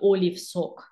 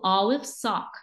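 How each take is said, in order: First: The vowel sounds like the letter name 'oh'. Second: The vowel is an open 'ah' sound. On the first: The speaker calls it wrong. "not olive sock" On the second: The speaker calls it right. "the name of the sound is A"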